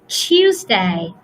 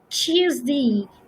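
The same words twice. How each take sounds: First: The last syllable is said as 'day'. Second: The last syllable is said as 'dee'.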